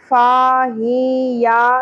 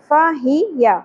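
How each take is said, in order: First: The first vowel is stretched long. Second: The first vowel is kept short. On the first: The speaker calls it wrong. "کھینچنا نہیں ہے" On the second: The speaker calls it right. "تو ہم آدھی الف کے برابر کھینچیں گے"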